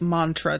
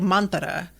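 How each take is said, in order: First: The word is said with two syllables. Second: The word is said with three syllables. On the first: "two syllables" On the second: "Like it's three syllables"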